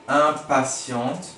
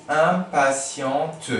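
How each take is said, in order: First: "impatiente" stretched very slowly; drawn-out "impatiente". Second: "impatiente" stretched slowly, a little louder; drawn-out "impatiente". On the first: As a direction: say "impatiente" syllable by syllable. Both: Shown as a demonstration. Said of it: "spelling demo".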